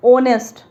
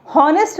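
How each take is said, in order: First: ऑनेस्ट with a silent h, opening on the vowel ऑ; honest said as onest, the h dropped; correct pronunciation. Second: हॉनेस्ट with a sounded h at the start; the mistaken h-honest to avoid; wrong pronunciation. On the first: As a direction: say ऑनेस्ट starting straight on the vowel, no h. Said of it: "हॉनेस्ट नहीं पढ़ते". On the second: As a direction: say हॉनेस्ट with a breathy h before the vowel. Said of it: "नहीं पढ़ते". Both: Shown as a demonstration.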